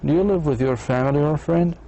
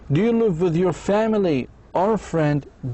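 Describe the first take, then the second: First: The voice rises at the end. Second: The voice rises on family, then falls. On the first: It asks for a yes or no answer. "بدي أسأل yes no question" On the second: It asks the listener to pick one option. "إذا بدي أخيره"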